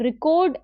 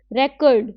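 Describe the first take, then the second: First: "record" stressed on the second syllable, ri-KORD; light first syllable in "record", long stressed second; verb stress. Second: "record" stressed on the first syllable, REK-erd; noun stress. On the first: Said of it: "as a verb". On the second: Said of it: "as a noun". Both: Shown as a demonstration.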